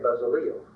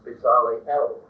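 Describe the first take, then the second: First: The final 'El' syllable is blurred into the word. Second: The final 'El' syllable is heard clearly. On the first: "Most of your Bibles will say Bezaliel" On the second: "the Hebrew is more or less Bezaliel, and the El, of course, means God"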